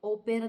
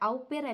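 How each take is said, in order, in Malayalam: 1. ആദ്യ സ്വരാക്ഷരം ലളിതമായ 'oh' ആണ്. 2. ആദ്യ സ്വരാക്ഷരം 'ow' പോലെ ഒഴുകിപ്പോകുന്നു. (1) "ഓ പെയർ എന്നും പറയും" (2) "ഔ പെയർ അല്ലെങ്കിൽ"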